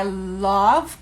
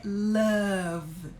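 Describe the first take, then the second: First: "love" with an open O vowel, drawn out slowly; open O variant. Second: "love" with a short-U vowel as in "luv", held; correct pronunciation. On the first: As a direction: stretch "love" as if spelt "lawv". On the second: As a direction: model "love" as "luv", drawn out. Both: Shown as a demonstration. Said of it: "A pronúncia correta é love".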